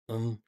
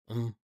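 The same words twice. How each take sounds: No difference in how they are said.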